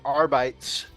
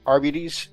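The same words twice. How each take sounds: First: The ending does not rhyme with diabetes. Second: The ending rhymes with diabetes. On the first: The speaker calls it wrong. "I've always said um, the Arbites ... I've just been mispronouncing it" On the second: The speaker calls it right. "Like diabetes? Arbites, yeah"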